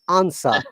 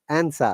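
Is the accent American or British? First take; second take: British; American. First: It is said with a British broad vowel. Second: It is said with an American flat vowel.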